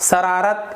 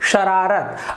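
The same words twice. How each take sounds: First: It begins with a hissing 's' sound. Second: It begins with a hushing 'sh' sound. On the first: The speaker calls it wrong. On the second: The speaker calls it right.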